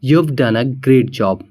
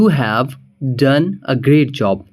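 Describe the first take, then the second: First: You have is shortened to one syllable. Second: You have is said as two full words.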